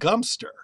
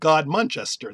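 First: The name is said as a short two-syllable form. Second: The name is said in full with all syllables. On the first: This is the form given by broadcasters and books. The speaker calls it wrong. "The BBC says it's pronounced Gumster" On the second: This is the form locals actually use. The speaker calls it right. "they pronounce it God Manchester"

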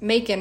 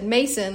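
First: The middle consonant is a k sound. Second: The middle consonant is an s sound. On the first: "It's pronounced Macon rhyming with bacon" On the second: "everyone there said Mason"

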